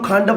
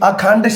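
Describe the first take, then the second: First: The word begins without its first vowel. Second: The word begins with its first vowel. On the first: The speaker calls it wrong. "ਉਹਨੂੰ ਖੰਡ ਬੋਲੀ ਜਾਣਾ" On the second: The speaker calls it right. "ਜਿਵੇਂ ਅਖੰਡ ਸ਼ਬਦ ਹੈ"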